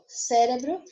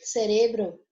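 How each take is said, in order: First: The stress falls where Portuguese places it. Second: The stress falls where Spanish places it.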